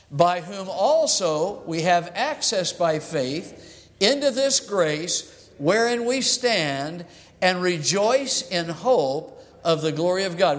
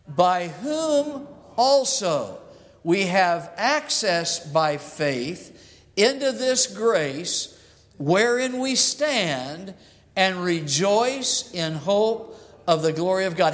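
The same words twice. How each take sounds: First: It is read at a normal pace. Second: It is read slowly and leisurely.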